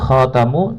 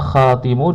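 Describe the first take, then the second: First: The vowel after the t is a. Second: The vowel after the t is i. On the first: "fathu at-ta" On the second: "kasrah at-ta"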